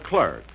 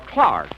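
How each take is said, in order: First: It is said with an American accent. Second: It is said with an English accent.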